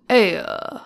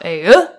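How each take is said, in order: First: Put-on New England accent. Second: Loud, ayuh pushed upward at the end; rising New England ayuh. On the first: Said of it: "his was like". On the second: Retold or imitated. Husband showing wife how the actor said it, rising loud. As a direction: swing the Hey, uh up and out. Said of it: "you wanted to go up".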